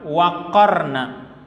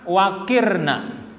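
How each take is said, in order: First: The vowel after the q is 'a'. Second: The vowel after the q is 'i'. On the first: It means stay or remain settled. "Kalau dibaca fathah waqarna" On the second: It comes from a different root word. "Lalu kalau dibaca waqirna"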